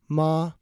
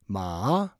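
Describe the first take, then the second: First: The pitch stays high and level throughout. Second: The pitch does not stay high and level. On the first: The word means mom. "with a high-level tone" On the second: The word means horse. "with a different tone"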